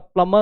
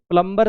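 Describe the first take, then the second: First: The b sound is left silent in the middle. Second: The b sound is pronounced in the middle. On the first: The speaker calls it right. "प्लमर होता है" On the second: The speaker calls it wrong. "प्लम्बर सही नहीं होता"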